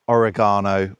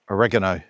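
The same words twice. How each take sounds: First: It is said with a British pronunciation. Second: It is said with an American pronunciation.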